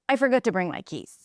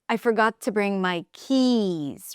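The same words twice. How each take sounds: First: The last word fades in pitch and volume. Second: The last word is lifted, longer and louder. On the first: The speaker calls it wrong. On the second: The speaker calls it right. "keys is the focus word here, and you want to lift it"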